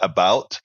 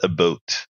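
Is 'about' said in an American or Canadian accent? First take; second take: American; Canadian. First: It is said in a general American accent. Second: It is said in a Canadian accent. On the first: "They don't say about" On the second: "That's how the Canadians say about. ... they say about"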